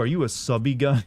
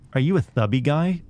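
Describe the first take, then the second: First: It is said in an ordinary speaking voice. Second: It is said in an exaggerated put-on voice.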